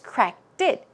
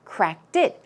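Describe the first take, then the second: No difference in how they are said.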